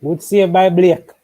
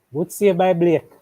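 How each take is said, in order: First: Louder, higher and drawn-out cheer; excited call. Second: Said in the usual way. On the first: Real, not acted. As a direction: call the save like a goal. Live save, excited call.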